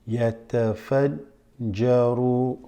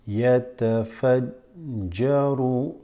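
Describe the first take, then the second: Both takes have the same delivery.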